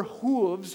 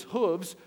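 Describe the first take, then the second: First: "hooves" with a long oo, as in food. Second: "hooves" with a short oo, as in hood. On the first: Pastor trying out the word, "hooves" with long oo. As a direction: say "hooves" to rhyme with grooves. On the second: Pastor unsure of the word, "hooves" with short oo. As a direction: say "hooves" with the vowel of book. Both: Shown as a demonstration. Tries two pronunciations of hooves.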